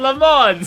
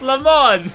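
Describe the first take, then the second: First: The name is said as Le Mans. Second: The same.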